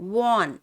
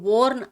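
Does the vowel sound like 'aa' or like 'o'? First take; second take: aa; o. First: The vowel sounds like a long 'aa'. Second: The vowel sounds like 'o' followed by r. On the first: The speaker calls it right. "వాన్ అని పలకాలి" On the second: The speaker calls it wrong. "దీన్ని వోర్న్ అనకండి"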